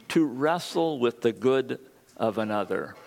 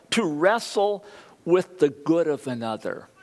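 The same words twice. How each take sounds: First: Said in the usual way. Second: "to wrestle" lifted high, then easing down on "with the good of another"; emphatic definition. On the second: Shown as a demonstration. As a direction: punch out "wrestle" at a raised pitch. Key definition stated, then repeated.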